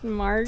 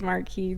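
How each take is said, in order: First: The name ends with a 'kus' sound. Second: The name ends with a 'kee' sound. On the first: The speaker calls it right. "I think it's pronounced Marcus" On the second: The speaker calls it wrong. "I thought it was Marquis too"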